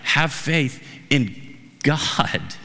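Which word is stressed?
God. The stress is on the word God.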